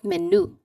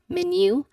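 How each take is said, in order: First: No y sound comes before the final vowel. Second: A y sound comes before the final vowel. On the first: The speaker calls it wrong. "not menu. Not um, the pronunciation is that how it looks like" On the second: The speaker calls it right. "the letter Y sound is um, written in the I P A transcription as the letter J"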